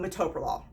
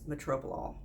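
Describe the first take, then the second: First: No R sound follows the T. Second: An R sound follows the T. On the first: The speaker calls it right. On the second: The speaker calls it wrong.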